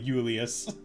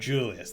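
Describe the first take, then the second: First: The name begins with a non-J sound. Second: The name begins with a J sound. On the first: The speaker calls it wrong. "It's not Julius" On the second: The speaker calls it right. "It, it is it is a J. It is Julius. There we go"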